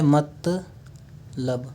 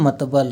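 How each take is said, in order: First: The word ends with the syllable 'lab'. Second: The word ends with the syllable 'bal'. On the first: The speaker calls it right. "जैसे होता है" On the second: The speaker calls it wrong. "उसको बोलते हैं"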